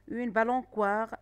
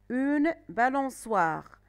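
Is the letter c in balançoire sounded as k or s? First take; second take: k; s. First: The c is pronounced as a k sound. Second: The c is pronounced as an s sound. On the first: The speaker calls it wrong. "si je mets le C, je vais dire une balançoire et ce n'est pas correct" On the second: The speaker calls it right. "la lettre C C D suivie de O se prononce S"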